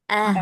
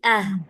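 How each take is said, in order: First: The h is light and relaxed. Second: The h is light and relaxed.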